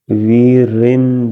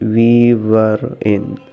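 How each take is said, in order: First: The words run together like one word. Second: Each word is said fully and separately. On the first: The speaker calls it right. "linking this word and you pronounce this word like that one word" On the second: The speaker calls it wrong. "this word pronounced we were in"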